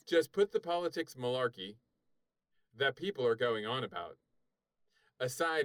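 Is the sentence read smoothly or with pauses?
with pauses. It is read with pauses at the commas.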